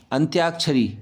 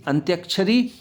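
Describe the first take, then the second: First: अंत्याक्षरी with long tyaa, falling. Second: अंत्याक्षरी with short a, antyakshari, rising; short-a misreading. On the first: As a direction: stretch the middle a: antyaakshari for अंत्याक्षरी. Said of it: "आ की मात्रा आएगी". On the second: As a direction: cut the middle a of अंत्याक्षरी short. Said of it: "यहाँ आ पर आ की मात्रा". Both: Shown as a demonstration.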